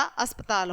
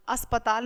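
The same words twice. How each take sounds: First: Said in the usual way. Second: "अस्पताल" split as as-pa-taal; extra vowel. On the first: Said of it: "अस्पताल होता है". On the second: Shown as a demonstration. Teacher rejects a misspelling, "अस्पताल" as as-pa-taal. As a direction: sound the A after P in "अस्पताल". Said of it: "अस्पताल नहीं होता".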